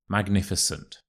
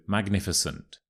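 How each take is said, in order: The two takes are said the same way.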